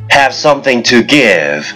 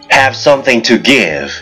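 Both takes have the same delivery.

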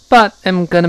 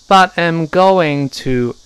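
First: It is said quickly with the reduced form gonna. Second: It is said slowly with the full form going to. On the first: "gonna 要轻" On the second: "在慢速在这个跟读的时候，版本就读成but I'm going to"

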